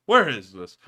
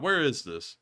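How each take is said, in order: First: Same question called out louder; louder repeat. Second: Said in the usual way. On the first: Real, not acted. Host repeating to himself, louder the second time.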